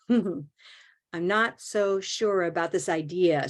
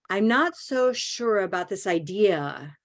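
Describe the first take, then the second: First: Slow take, small syllables, "idea" stressed; slow it down and land on "idea". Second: Quick small syllables landing on "idea"; small syllables, stress on idea. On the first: Teacher repeating phrase slowly for class. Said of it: "so you can hit idea". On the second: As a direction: keep the small ones small, hit "idea". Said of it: "listen to the other option". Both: Shown as a demonstration.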